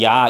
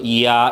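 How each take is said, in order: First: The vowels merge into one quick syllable. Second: The two vowels are joined smoothly without a break. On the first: "빨리 하면" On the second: "자연스럽게 뭐 해서 묶어서"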